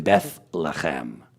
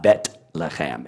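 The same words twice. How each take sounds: First: "Bethlehem" slowly with th and throaty h; soft th. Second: "Betlehem" slowly with a hard t. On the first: Teacher correcting the consonant, slow soft th. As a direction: say "Bethlehem" with th closing the first syllable. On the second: Teacher showing the rejected form, hard t. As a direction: stop "Betlehem" on a crisp t. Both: Shown as a demonstration. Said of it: "not Betlehem".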